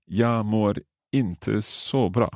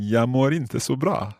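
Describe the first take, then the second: First: "Jag mår inte så bra" said very slowly; slow careful repeat. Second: "Jag mår inte så bra" run together faster, higher; quicker try. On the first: Learner repeats the new phrase very slowly. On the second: Learner imitates the teacher's quick Swedish. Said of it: "I'll try saying that quickly like you". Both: Shown as a demonstration.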